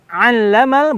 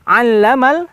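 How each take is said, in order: Both takes have the same delivery.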